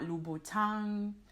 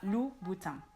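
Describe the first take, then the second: First: The final N sound is pronounced. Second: The final N sound is silent. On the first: The speaker calls it wrong. "It's not Louboutin" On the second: The speaker calls it right. "the N at the end of the word is not pronounced"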